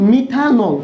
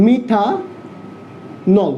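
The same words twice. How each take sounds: First: Said in the usual way. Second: Slowly drawn out. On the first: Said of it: "কি পাবা?". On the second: Shown as a demonstration. Teacher drawing out methanol very slowly for the class. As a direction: stretch methanol out very slowly, syllable by syllable. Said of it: "দেখো".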